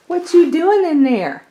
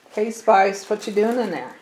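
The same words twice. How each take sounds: First: High, loud sing-song pet voice. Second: Said in the usual way. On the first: Real, not acted. Baby talk to the pet.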